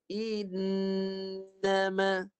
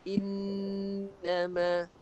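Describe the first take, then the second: First: The first vowel is held a beat before n. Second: The first vowel runs straight into the n. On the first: The speaker calls it right. "Yang betul" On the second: The speaker calls it wrong. "Yang salah macam ni"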